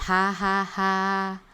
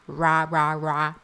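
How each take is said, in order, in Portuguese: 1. O R é gutural, como um h. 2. O R é arredondado, com um som parecido com u. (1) "Outra coisa é eu fazer" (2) "Parece que tem um U"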